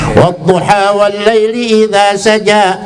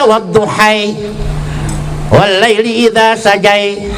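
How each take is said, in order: First: The words end in a plain 'a' sound. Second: The words end in an 'ai' sound. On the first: The speaker calls it right. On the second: The speaker calls it wrong.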